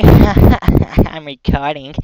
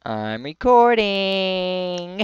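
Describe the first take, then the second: First: Slow, laughing through the words. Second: Slow, higher drawn-out teasing; mock announcing. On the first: Real, not acted. Teasing his friend Jack, laughing while saying it. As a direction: laugh out recording. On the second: Teasing his friend Jack, slow singsong. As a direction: stretch out recording to tease. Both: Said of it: "teasing Jack about recording".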